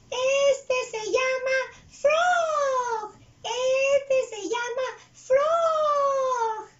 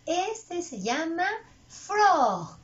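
First: Very high, loud puppet voice, drawn out; big stretched squeal on each word; Chuy. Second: Said in the usual way. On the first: Acted. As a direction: repeat the lesson slowly in a squealing character voice. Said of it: "él va a repetir las palabras". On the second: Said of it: "yo digo la palabra".

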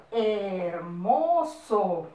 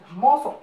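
First: Long drawn-out syllables; very slow dictation. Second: Said in the usual way. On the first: Shown as a demonstration. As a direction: stretch every syllable for pupils to copy. Teacher dictating example word. (dictado muy lento, sílabas alargadas)

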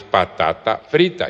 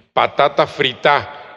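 First: Said in the usual way. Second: "frita" stressed on the final a, fritÁ; slow demo, landing "frita" on its last vowel; Papiamento pronunciation. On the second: Shown as a demonstration. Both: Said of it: "es patata frita".

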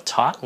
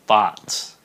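First: THOUGHT with aspirated T for th; wrong th sound. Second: Loud THOUGHT with unaspirated th; correct th sound. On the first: Teacher telling learners not this, mispronounced THOUGHT. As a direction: say THOUGHT as puffed T-HOT. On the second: Teacher correcting learners, firm correct THOUGHT. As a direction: model THOUGHT firmly, no puff. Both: Shown as a demonstration. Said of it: "Không có thought nha".

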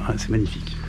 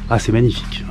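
First: Softer, breathed-out admiration; hushed awe. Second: Admiring sigh. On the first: Standing before the abbey, murmuring his awe to viewers. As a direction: let the wonder drop almost to a murmur. Repeats admiration more softly. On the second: Admiring the abbey. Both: Real, not acted.

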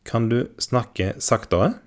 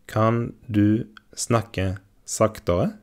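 First: Said in the usual way. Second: Slowed right down, word by word; careful slow model of Kan du snakke saktere; slow teaching repeat. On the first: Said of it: "lesson model phrase". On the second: Shown as a demonstration. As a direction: say it slowly for learners to copy. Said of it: "slow repeat for learners".

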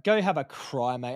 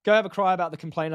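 First: Slow retelling. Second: Fast retelling. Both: Retold or imitated. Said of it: "I said to him".

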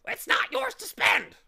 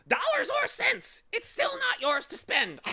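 First: It's not "yours" to spend, "yours" hit in a high loud shriek. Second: It's still "not" yours to spend, "not" stressed in a high loud haughty squawk. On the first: Bird twisting the boy's words, "yours" shrieked high. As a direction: shriek "yours" at him, much higher and louder. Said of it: "the bird shrieked again". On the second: Bird correcting the boy, haughty stress on "not". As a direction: lean on "not" with lofty scorn, much higher and louder. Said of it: "the bird replied haughtily". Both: Acted.

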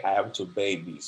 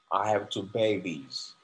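First: Said in the usual way. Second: Slow model sentence. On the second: Shown as a demonstration. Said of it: "example sentence".

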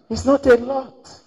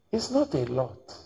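First: "It's not a lot." high, loud, stressing "a lot"; emphatic. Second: Said in the usual way. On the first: Shown as a demonstration. Preacher driving home his point to the congregation, emphatic high stress. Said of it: "Are you understanding?". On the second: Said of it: "what did I say?".

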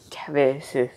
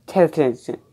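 First: Unvoiced hushed whisper. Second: Said in the usual way. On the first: Shown as a demonstration. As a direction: breathe the word out with no voice. Says the word twice, differently.

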